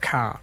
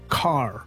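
First: It is said with an Aussie or Kiwi accent, no R. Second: It is said with an American accent, strong R.

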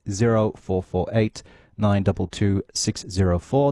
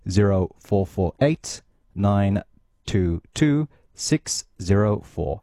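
First: The number is read at a faster pace. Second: The number is read at a slower pace.

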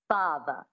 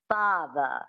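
First: It is said in a transatlantic accent. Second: The same.

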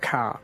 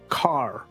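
First: It is said with an Australian or Kiwi accent. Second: It is said with an American accent.

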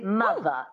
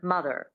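First: The final R is dropped for a schwa. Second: The final R is clearly pronounced.

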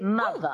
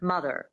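First: It has a transatlantic accent without an R. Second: It has a standard American accent with an R.

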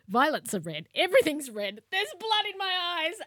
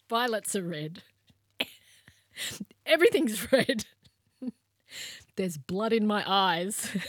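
First: It is said without laughing. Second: It is said while laughing.

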